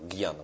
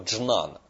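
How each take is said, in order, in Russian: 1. Слово начинается с мягкого звука 'gy'. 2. Слово начинается со звука 'dzhn'. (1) "вот так вот, транслитерация живет" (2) "Вообще говорят слово джнана"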